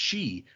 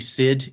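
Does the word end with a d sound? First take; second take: no; yes. First: The word is said without a final d. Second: The word is said with a final d. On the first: This is how the word is really pronounced. The speaker calls it right. "that word is pronounced she" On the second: This is how the word looks from its spelling. The speaker calls it wrong. "I still say Sid in my head because that's what it looks like"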